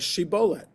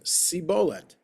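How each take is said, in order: First: The word begins with a 'sh' sound. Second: The word begins with an 's' sound. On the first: The speaker calls it right. "Ephraimites don't have the, the shin" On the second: The speaker calls it wrong. "They only have the sin"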